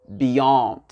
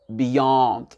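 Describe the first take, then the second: The two takes are said the same way.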